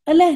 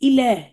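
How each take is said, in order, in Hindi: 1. यह शब्द 'a' स्वर से शुरू होता है। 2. यह शब्द 'i' स्वर से शुरू होता है। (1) "अक्सर लोग अलह कर देते हैं, अलह नहीं"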